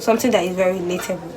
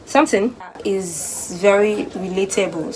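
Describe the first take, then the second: First: Fast, brushed-off repeat; quick repeat. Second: Slow emphatic. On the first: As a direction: rattle it off quickly. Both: Shown as a demonstration.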